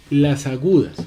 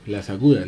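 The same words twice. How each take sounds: First: "agudas" said higher and louder for emphasis; "agudas" stressed, raised and loud; emphatic. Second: Said in the usual way. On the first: Shown as a demonstration. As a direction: lean on "agudas" to introduce the topic.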